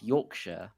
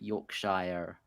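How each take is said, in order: First: The final syllable is short and reduced. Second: The final syllable is a full 'shire'. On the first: The speaker calls it right. "it's Yorkshire" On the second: The speaker calls it wrong. "not Yorkshire. ... you don't pronounce the Shire"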